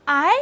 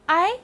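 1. 音高从中音升到高音。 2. 音高从中音升到高音。

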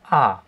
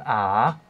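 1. Die Tonhöhe fällt stark von hoch nach tief. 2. Die Tonhöhe sinkt tief und steigt dann wieder. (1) "fallend, da sind wir beim vierten Ton" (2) "Der fängt mittel an, sinkt dann ab und steigt dann wieder auf"

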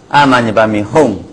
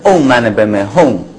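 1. 第一个音节念成开口的 'an'。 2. 第一个音节念成圆唇的 'ong'。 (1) "一般你会念安啊" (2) "其实要念嗡是比较正确的"

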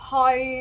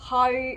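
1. พยางค์นี้พูดด้วยระดับเสียงกลางคงที่ 2. พยางค์นี้พูดด้วยระดับเสียงกลางคงที่

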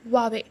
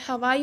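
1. यह हल्के H के साथ 'hwah-way' जैसा सुनाई देता है। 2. यह 'ha-wai' जैसा सुनाई देता है। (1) "No, it's Huawei. H is a little bit silent here" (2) "हवाई बोलते हैं"

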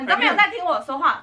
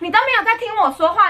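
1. 这是用平常、普通的语气说的。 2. 这是用甜甜的、撒娇哄人的语气说的。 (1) "可是不是我这种语气" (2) "他是你都没有在听我说话"

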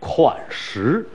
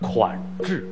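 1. 第二个音节读 shi。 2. 第二个音节读 zhi。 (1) "很多朋友很多年来一直念错，我们常说款识，就识字的识" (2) "确切的应该念款制"

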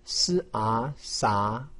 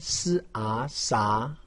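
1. 音高从中到高上升。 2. 音高从中到高上升。

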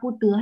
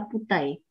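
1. Âm tiết thứ hai được đọc là 'de'. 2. Âm tiết thứ hai được đọc là 'dei'. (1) "đọc pu tứa hay là pu tẩy?" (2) "Đúng rồi"

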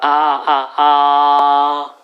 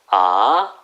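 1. 음높이가 높은 상태로 평평하게 유지돼요. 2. 음높이가 중간에서 높게 올라가요. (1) "꼬집는다 아 1성" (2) "2성은 올리면 2성이에요"

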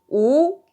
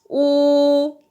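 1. 2성으로 말합니다. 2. 1성으로 말합니다. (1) "2성은" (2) "1성부터 해보겠습니다"

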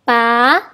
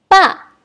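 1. Diucapkan dengan nada kedua. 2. Diucapkan dengan nada keempat. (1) "Nada kedua" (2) "Dan nada keempat"

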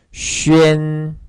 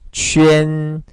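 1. 입술을 둥글게 해서 'jwee-en'처럼 들려요. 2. 입술을 둥글게 해서 'jwee-en'처럼 들려요.

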